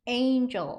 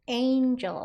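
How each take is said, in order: The two takes are said the same way.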